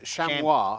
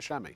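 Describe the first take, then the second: First: The word is said the French way. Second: The word is said the English way. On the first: This is the original foreign name. "it's cha- ch- chamois, and no one over here could pronounce it" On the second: This is the simplified local name. "so they called it chamois"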